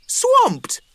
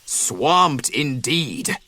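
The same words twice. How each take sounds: First: High, rising surprised question; curious weasel kids. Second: Mild bison agreement. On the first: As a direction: perk up at the word Swamped. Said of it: "the bored weasels asked". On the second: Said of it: "the bison agreed". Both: A narrator's reading.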